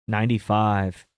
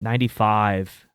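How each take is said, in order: Both takes have the same delivery.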